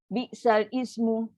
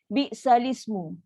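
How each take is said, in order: First: The words are said separately, not linked. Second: The words are run together as one. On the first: The reader has not learned the proper recitation. The speaker calls it wrong. "bila orang baca itu maknanya dia tak belajar. Sebab dia bukan bunyi macam tu" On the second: The reader has learned the proper recitation. The speaker calls it right. "Dia akan bunyi bi'salismu"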